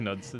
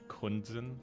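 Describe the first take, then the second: First: The name begins with a 'nu' sound. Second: The name begins with a 'kun' sound. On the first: The speaker calls it right. "instead of" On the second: The speaker calls it wrong. "I got the N and the U's mixed up"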